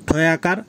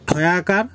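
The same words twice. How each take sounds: The two takes are said the same way.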